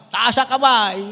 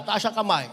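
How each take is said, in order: First: Firmer call. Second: Said in the usual way. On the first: Real, not acted. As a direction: insist the youths raise their hands. (mas malakas na ulit na "Taas ang kamay")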